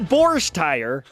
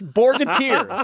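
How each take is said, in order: First: The name sounds like 'borscht' plus 'tire'. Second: The name sounds like 'borga' plus 'teer'. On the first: The speaker calls it wrong. "It's not Borscht Tire" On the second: The speaker calls it right. "it's Borgateer"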